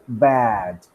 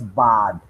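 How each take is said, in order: First: The vowel is the trap vowel. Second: The vowel is not the trap vowel. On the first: The speaker calls it right. "You pronounce it like bad" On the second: The speaker calls it wrong. "You don't pronounce the word as bad"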